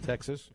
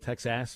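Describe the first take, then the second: First: The final syllable gets no extra emphasis. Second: The final syllable gets extra emphasis.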